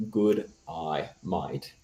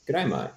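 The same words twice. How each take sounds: First: "Good eye, mate" as separate, spaced words; "Good eye, mate" spelled out by ear, word by word; sounded-out phrase. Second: "Good day, mate" run quickly together in Australian; higher, quick Australian "g'day mate". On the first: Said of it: "if you say the phrase". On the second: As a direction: say it fast as an Australian. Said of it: "as an Australian". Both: Shown as a demonstration.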